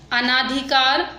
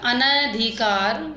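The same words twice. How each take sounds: First: अनाधिकार with long "naa"; wrong long vowel. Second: अनधिकार slowly, with short "na"; correct short vowel. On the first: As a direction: stretch the second vowel of अनाधिकार. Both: Shown as a demonstration. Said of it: "मात्रा संबंधी अशुद्ध शब्द".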